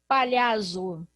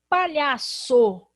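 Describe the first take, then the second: First: The middle consonant is a z sound. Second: The middle consonant is an s sound.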